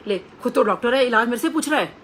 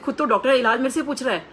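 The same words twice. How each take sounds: First: Loud playful teasing, voice raised; jovial teasing guru. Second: Louder, higher playful teasing; hammed-up ribbing of the doctor; jovial teasing guru. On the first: Retold or imitated. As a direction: tease her like a jolly guru scolding a doctor. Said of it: "बहुत jovial nature के गुरुजी थे". (मज़ाकिया, ऊँची आवाज़ में छेड़ते हुए) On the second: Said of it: "मतलब, ऐसे type में". (ऊँची, ज़ोरदार मज़ाकिया आवाज़ में छेड़ना)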